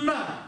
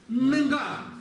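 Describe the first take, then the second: First: The tongue tip presses the teeth for the consonant. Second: The back of the tongue presses the palate. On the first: The speaker calls it wrong. "Не на. ... Нет здесь у нас упора в язы, языка в зубы" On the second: The speaker calls it right. "Спинка языка, задняя часть языка упирается в ... небо"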